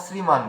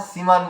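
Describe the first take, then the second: First: শ্রীমান with the r, as sriman; correct pronunciation. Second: শ্রীমান without the r, as siman; pronunciation to avoid. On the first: Teacher showing what to say, clear r pronunciation. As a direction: sound the sr cluster in শ্রীমান. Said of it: "বলবো". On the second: Teacher showing what not to say, r-less pronunciation. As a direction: drop the র from শ্রীমান. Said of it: "বলবো না". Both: Shown as a demonstration.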